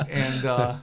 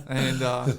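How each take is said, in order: No difference in how they are said.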